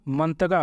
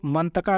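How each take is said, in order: First: मंतगा ending in a hard 'ga'; मंतगा as 'man-ta-GA', voiced g sound; local g form. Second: मंतका ending in a hard 'ka'; मंतका as 'man-ta-KA', unvoiced k sound; bookish k form. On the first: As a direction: say मंतगा with g replacing the k. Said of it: "काफ को गाफ की तरह पढ़ते हैं". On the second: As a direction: say मंतका with k in the last syllable. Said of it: "तो मंतका नहीं होगा". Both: Shown as a demonstration.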